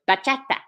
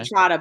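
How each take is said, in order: First: The word is said with an exaggerated accent. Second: The word is said plainly, without exaggeration. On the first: The speaker calls it wrong. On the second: The speaker calls it right.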